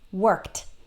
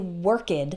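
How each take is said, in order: First: The ending is said as a plain t. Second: The ending is said as an extra syllable. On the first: The speaker calls it right. "the ed actually sounds like t" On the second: The speaker calls it wrong. "we don't say worked"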